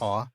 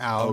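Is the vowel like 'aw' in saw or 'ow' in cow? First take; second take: aw; ow. First: The vowel sounds like aw in saw. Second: The vowel sounds like ow in cow. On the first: The speaker calls it wrong. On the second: The speaker calls it right. "So it's it's ow"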